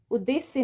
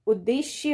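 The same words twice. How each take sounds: First: उद्देश्य with plain s, ud-de-se; wrong pronunciation. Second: उद्देश्य with a clear sh; correct pronunciation. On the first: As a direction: replace sh with s in उद्देश्य. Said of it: "ना होके". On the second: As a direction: say उद्देश्य as ud-desh-ye, slowly. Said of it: "उद्देश्य होगा". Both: Shown as a demonstration.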